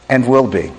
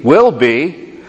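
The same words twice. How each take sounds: First: Will stressed, falling to a close; will weighted and let fall to rest; settled emphasis. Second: Will stressed with a hopeful rise; building emphasis. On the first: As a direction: bring the list home on will, downward. Could, should, can, and will be. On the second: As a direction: lift on will, rising to a peak. Could be, can be, will be climax. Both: Acted.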